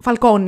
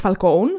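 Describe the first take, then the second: First: Falcone said Italian-style, ending "-ko-nee"; Falcone ending in -όνι. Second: Falcone said "fal-KOHN", final vowel dropped; English-style Falcone, ending "-kown". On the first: Host correcting the co-host, Falcone ending in "-nee". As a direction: say Falcone with a final "ee". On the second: Host rejecting the name, Falcone as "fal-kown". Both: Shown as a demonstration. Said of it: "όχι Falcone".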